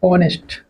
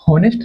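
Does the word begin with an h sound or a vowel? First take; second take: vowel; h sound. First: The word begins directly with a vowel. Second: The word begins with an h sound. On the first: The speaker calls it right. "क्या बोलते, ऑनेस्ट" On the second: The speaker calls it wrong. "यहाँ हम हॉनेस्ट नहीं पढ़ते"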